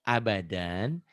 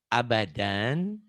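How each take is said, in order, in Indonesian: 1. Kata ini berakhir dengan bunyi n. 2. Kata ini berakhir dengan bunyi n.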